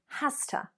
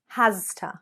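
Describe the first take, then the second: First: It is reduced, blended into 'hasta'. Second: Both words are said fully and separately. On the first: "native speakers, we would say" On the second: "rather than"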